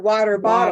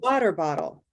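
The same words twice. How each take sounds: First: Both words carry equal stress. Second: Only water carries the main stress.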